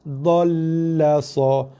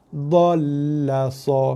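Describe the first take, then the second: The two takes are said the same way.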